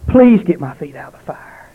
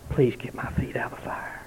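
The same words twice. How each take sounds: First: Louder, higher anguished cry of a dying man; retold scream. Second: A desperate, breathless whisper of a dying man; whispered plea. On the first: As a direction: cry it out in terror, not a full scream. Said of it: "he screamed". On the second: Retold or imitated. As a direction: whisper it, pleading in terror. Dying man's plea, retold.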